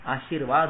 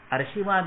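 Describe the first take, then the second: First: आशीर्वाद said as "आ-शीर्-वाद", with the r after शी; the right way, आशीर्वाद with r before व; correct pronunciation. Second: आशीर्वाद said as "अर्शीवाद", with the r moved before श; the wrong way, आशीर्वाद said "अर्शीवाद"; wrong pronunciation. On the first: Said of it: "आशीर्वाद होता है". (आशीर्वाद का शुद्ध उच्चारण, "आ-शीर्-वाद") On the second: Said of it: "आशीर्वाद नहीं होता है". (आशीर्वाद का गलत उच्चारण, "अर्शीवाद") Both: Shown as a demonstration.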